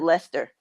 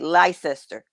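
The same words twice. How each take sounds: First: It is said the way locals say it. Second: It is read closely following its spelling. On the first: This is how locals say the name. The speaker calls it right. "They pronounce it Leicester" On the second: This is how an outsider reads the name. The speaker calls it wrong. "to me, it's a Leicester"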